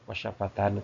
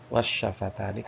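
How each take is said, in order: First: The word ends with a final 'nu' sound. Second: The word ends with a final 'ni' sound. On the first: The speaker calls it wrong. "Bukan wasyafatanu" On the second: The speaker calls it right. "tapi wasyafatani"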